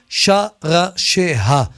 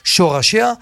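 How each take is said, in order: First: The first syllable has a vowel other than 'o'. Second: The first syllable has an 'o' vowel. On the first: The speaker calls it right. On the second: The speaker calls it wrong.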